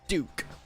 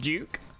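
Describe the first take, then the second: First: Duke is said in an American accent. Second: Duke is said in a non-American accent.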